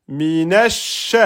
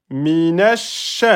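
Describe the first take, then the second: The two takes are said the same way.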